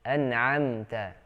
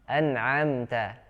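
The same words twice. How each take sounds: First: The ain sound is light and thin. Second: The same.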